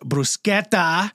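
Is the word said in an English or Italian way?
Italian. The word is said with an Italian-style pronunciation. The speaker calls it right.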